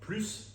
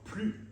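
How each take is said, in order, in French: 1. Le mot se termine par un son s clair. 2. Le mot se termine sur la voyelle, sans consonne. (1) "avec le S prononcé" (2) "sans S prononcé"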